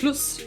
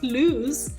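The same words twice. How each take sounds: First: The word is said with a foreign accent. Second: The word is said with standard pronunciation. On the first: The speaker calls it wrong. "his pronunciation is also like lose" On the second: The speaker calls it right. "not lose"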